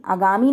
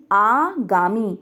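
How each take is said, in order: First: आगामी with short opening a, "a-gaami"; mispronunciation demo. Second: आगामी slowly, as "aaa-gaa-mee"; long first vowel. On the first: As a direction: clip the first vowel of आगामी short. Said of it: "आगामी नहीं". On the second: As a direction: draw out the opening आ of आगामी. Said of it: "आ की मात्रा है". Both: Shown as a demonstration.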